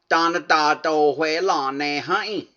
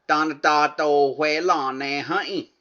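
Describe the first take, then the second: No difference in how they are said.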